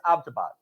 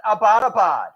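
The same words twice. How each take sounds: First: Abbottabad squeezed into three syllables, AB-ta-bad; corrected local pronunciation. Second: Abbottabad said in four full syllables, a-BOT-a-bad; wrong pronunciation. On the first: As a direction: drop the middle vowel of Abbottabad, stress first. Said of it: "Well, how do you say it?". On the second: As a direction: spell out every vowel in Abbottabad, like an outsider. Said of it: "it's not pronounced Abbottabad".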